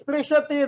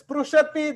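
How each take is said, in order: First: The vowel after 'spr' sounds like 'i'. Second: The vowel after 'spr' sounds like 'u'. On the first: "are familiar with sprishati, that is correct" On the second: "if you are familiar with sprushati, that is correct"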